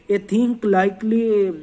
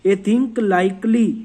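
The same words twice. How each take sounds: The two takes are said the same way.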